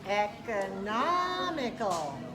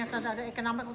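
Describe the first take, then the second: First: The stressed vowel is clearly lengthened. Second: The stressed vowel is not lengthened. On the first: The speaker calls it right. "Yes, that's right" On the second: The speaker calls it wrong. "try to be careful not to do this"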